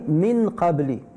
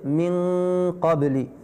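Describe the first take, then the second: First: The n is said plainly without a held nasal. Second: The n is held with a long nasal ghunna. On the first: The speaker calls it wrong. "Quelqu'un a dit min qabli. Il a fait une erreur" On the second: The speaker calls it right. "Normalement, au Coran, on doit dire"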